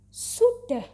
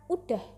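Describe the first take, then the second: First: The word begins with an s sound. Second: The word begins with a vowel sound. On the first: This is the standard formal form. The speaker calls it right. "menggunakan kata sudah" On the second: This is the casual everyday form. The speaker calls it wrong. "bukan udah"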